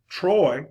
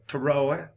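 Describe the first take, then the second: First: It is said as one syllable. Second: It is drawled into two syllables, Southern style.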